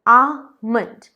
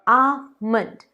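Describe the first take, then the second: The two takes are said the same way.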